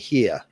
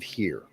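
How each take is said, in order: First: The final R sound is dropped. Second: The final R sound is pronounced. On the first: "they don't use that hard R. They'll say here" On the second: "instead of here"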